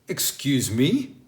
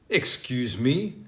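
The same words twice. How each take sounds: The two takes are said the same way.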